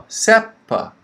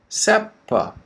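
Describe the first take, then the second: Both takes have the same delivery.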